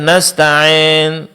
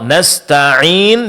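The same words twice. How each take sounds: First: The long i vowel is mixed with an a sound. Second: The long i vowel sounds pure.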